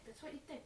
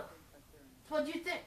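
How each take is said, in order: First: Much softer, a hushed echo. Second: Stretched out, slow and teasing; slow ominous. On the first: Comic storyteller echoing his own warning, hushed and softer. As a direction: drop it to a hushed aside. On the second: Comic storyteller teasing the audience about the tomato, slow and ominous. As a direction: drag each word out slowly like a warning. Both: Acted.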